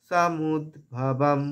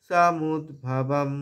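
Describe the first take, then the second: No difference in how they are said.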